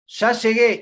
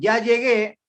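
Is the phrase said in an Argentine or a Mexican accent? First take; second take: Argentine; Mexican. First: It is said in an Argentine accent. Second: It is said in a Mexican accent. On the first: "nosotros decimos" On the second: "ustedes dicen"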